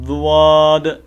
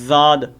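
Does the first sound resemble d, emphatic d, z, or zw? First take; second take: zw; z. First: It begins with a z-like sound plus a w-glide. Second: It begins with a plain z-like sound. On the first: "जुआद नहीं पढ़ना" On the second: "जा भी नहीं पढ़नी"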